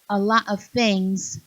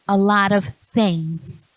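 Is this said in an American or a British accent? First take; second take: British; American. First: It is said in a British Cockney accent. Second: It is said in an American accent. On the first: "they say" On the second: "instead of"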